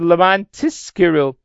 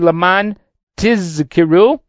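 First: Tizkeru begins with an s sound. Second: Tizkeru begins with a clear z sound. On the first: Do the commandments in order to get reward. The speaker calls it wrong. "if it sounded like a sin, it would be" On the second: Remember the commandments. The speaker calls it right. "that you emphasize the Zion over there on Tizkaru"

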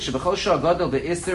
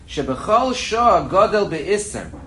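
First: It is read at normal speed. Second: It is read more slowly.

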